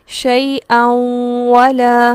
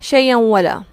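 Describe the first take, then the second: First: The nasal sound is held before moving on. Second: The nasal sound passes quickly without being held. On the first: The speaker calls it right. "बल्कि रुकना है" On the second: The speaker calls it wrong. "यहाँ हम इसको यूं नहीं पढ़ते"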